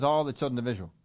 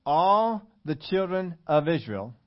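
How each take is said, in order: First: Said in the usual way. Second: "All" stretched long and weighty; slow, deliberate emphasis on "All"; stress on ALL. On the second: Shown as a demonstration. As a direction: draw out "All" slowly, then measure out the rest. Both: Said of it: "I would say all, right?".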